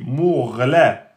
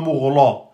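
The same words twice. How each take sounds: First: The l is pronounced light and thin. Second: The l is pronounced heavy and thick. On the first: The speaker calls it right. "Le lem est aminci" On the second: The speaker calls it wrong. "C'est pas mourla"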